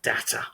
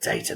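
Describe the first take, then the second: First: The word is pronounced a non-British way. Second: The word is pronounced the British way. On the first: The speaker calls it wrong. "not data" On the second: The speaker calls it right. "I'm glad I said data, ... I'm back in England"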